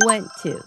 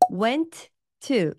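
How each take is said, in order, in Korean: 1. 두 t 소리가 하나로 합쳐집니다. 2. 두 t 소리를 각각 따로 발음합니다.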